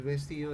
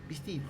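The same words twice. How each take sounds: First: Said in the usual way. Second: "vestido" said as "vistido", first vowel closed to i. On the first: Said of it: "En vez de decir". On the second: Shown as a demonstration. Profe imita la confusión vocálica andina ante la clase. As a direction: swap the e of "vestido" for an i.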